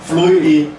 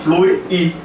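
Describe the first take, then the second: The two takes are said the same way.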